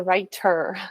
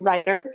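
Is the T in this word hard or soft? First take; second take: hard; soft. First: The T is sharp and clearly pronounced. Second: The T is soft, almost like a D. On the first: "with a hard T" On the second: "I don't say"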